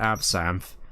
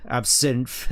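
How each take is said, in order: First: "Absinthe" with an open a, ab-SANTH; contrasting pronunciation. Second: "Absinthe" with a short i, ab-SINTH; alternate pronunciation. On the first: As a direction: say "Absinthe" with the vowel of ant. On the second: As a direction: say "Absinthe" so it rhymes with plinth. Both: Shown as a demonstration. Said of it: "as opposed to Absinthe".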